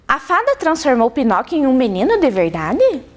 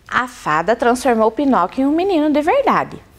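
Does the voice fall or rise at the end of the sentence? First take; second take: rise; fall. First: The pitch rises at the end like a question. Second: The pitch falls at the end like a statement. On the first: It asks whether this happened. "será que não poderia ser assim? ... Uma pergunta?" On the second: It states a known fact. "Olha a entonação da professora"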